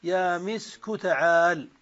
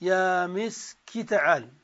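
First: يا مسك with كاف in damma, misku; مسك in the non-waiting form; non-waiting dialect. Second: يا مسك with كاف in kasra, miski; مسك kept as in مسكين; waiting dialect. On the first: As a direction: say مسك ending in u. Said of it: "ومن لا ينتظر". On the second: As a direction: say مسك ending in short i. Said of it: "على لغة من ينتظر". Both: Shown as a demonstration.

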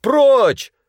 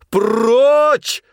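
First: High, loud «Прочь» barked; man shouting at the manager. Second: High, held, loud «Прочь»; man shouting louder at the manager. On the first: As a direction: yell him away. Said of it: "крикнул Князев". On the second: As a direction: shout it longer and harder. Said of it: "закричал тогда Князев громче прежнего". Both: A narrator's reading.

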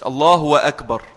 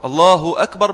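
First: "الله أكبر" with a w glide, Allahu-wakbar; wrong waw glide. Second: "الله أكبر" as Allahu akbar, clean u, no w; damma on the Ha. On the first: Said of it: "مش بالواو". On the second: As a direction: end الله on a short u, then a fresh hamza on أكبر. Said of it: "بضم الهاء". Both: Shown as a demonstration.

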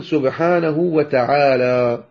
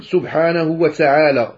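First: وتعالى with a crisp pure ta, said slowly; correct Quranic ta. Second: وتعالى with the ta tinged by s; wrong recitation of ta; sibilant ta demo. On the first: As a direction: recite وتعالى with a clean ta. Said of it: "قل سبحانه وتعالى". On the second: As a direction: demonstrate the hissing ta in وتعالى. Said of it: "لا، هذا خطأ". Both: Shown as a demonstration.

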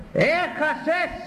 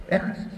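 First: High, slow, drawn-out taunt with a rising end. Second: Said in the usual way. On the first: Acted. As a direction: stretch out Έχασες high and mocking. Taunting the one who lost. (κοροϊδευτικό, αργό και ψηλό Έχασες)

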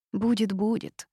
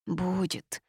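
First: Gleeful vindictive nodding Будет, будет with a rising lilt. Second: Softer, plaintive Будет with a falling sigh; a touch of pitiful whimper. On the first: The witch, vengefully agreeing about grandmother, vindictive. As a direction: relish the threat, a touch of spite. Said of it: "мстительно закивала я". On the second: The toad, hiding in her hair, plaintive. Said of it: "жалобно добавила Васька". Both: A narrator's reading.

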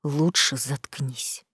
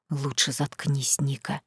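First: Low, soft, slow menace repeated; muffled threat. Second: Muffled threat. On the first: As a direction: press the threat quietly again. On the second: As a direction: threaten her quietly from deep down. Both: Acted. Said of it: "пригрозил Саид глухим голосом".

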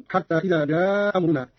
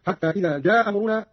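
First: "جاء أمرنا" with one hamza and a lengthened aa; first hamza dropped, long madd. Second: "جاء أمرنا" with one hamza and short madd; first hamza dropped, short vowel. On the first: (إسقاط الهمزة الأولى مع المد في "جاء أمرنا") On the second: (إسقاط الهمزة الأولى مع القصر في "جاء أمرنا") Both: Shown as a demonstration. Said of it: "القصر والمد هكذا".

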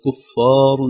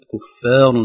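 First: كفار with the ر wrongly made thin; the wrong reading of كفار. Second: كفار with a thin ف and a full heavy ر; كفار with a heavy final ر; correct كفار. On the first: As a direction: mispronounce كفار with a light ر. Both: Shown as a demonstration. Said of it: "ليست كفار".

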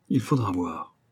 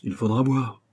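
First: Bravado settling lower; understated show of nerve; cocky, subdued. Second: Putting on a bold front; a touch of swagger in the reply; cocky. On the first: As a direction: repeat it as a low-key, falling afterthought. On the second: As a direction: answer with mock bravado, keeping it understated. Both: A narrator's reading. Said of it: "c'est d'un air crâne qu'il répondit".

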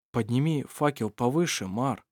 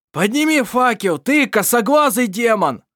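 First: Hushed, fearful asking; timid plea. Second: Furious shout, much higher and louder; angry yell. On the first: Vassar timidly asking the watchman to raise the torch. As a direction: ask as if afraid to be refused. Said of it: "попросил он боязливо". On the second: Irovar screaming at Mar to raise the torch, furious. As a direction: roar it at him in rage. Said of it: "заорал в гневе". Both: A narrator's reading.

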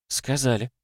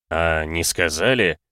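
First: High, soft and playful; "Сказали" tossed back slyly, higher and softer. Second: Slow, teasing question with a smirk; "А не сказали?" said slowly, lightly amused; faint chuckle. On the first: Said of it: "лукаво отозвалась его собеседница". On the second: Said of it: "Чуть усмехнулся мужчина". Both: A narrator's reading.

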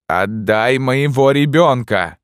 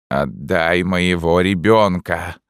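First: High, loud, slow insistent cry; mother screaming for her child back; shouted demand. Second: Grim demand. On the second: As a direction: say it like a cold refrain. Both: A narrator's reading. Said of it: "отвечала узница".

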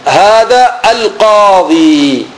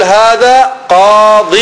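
First: هذا القاضي said slowly, the final ياء in القاضي drawn out as a long "ee"; slow clear demo. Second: هذا قاض said slowly, قاض cut short on the "d" with no final ياء; slow clear demo. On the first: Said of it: "مثلًا أنا أقول". (نطق بطيء لـ القاضي بياء ممدودة) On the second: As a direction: clip قاض off with no ياء at the end. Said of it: "ممكن أقول". (نطق بطيء لـ قاض بلا ياء) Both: Shown as a demonstration.

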